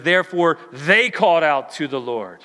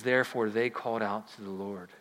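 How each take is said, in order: First: "Therefore" proclaimed louder; loud reading. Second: Softer, lower repeat of "Therefore, they called out to the Lord"; quiet reading. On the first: Preacher reading the verse aloud to the church, proclaiming. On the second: Preacher rereading the verse to the church, hushed. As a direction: say it again hushed and reverent. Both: Shown as a demonstration.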